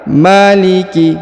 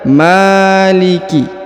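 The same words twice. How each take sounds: First: The first vowel is kept short. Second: The first vowel is held long. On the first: The speaker calls it right. "padahal yang benar maliki ya, satu harokat" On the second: The speaker calls it wrong. "biasanya ini dibaca maliki"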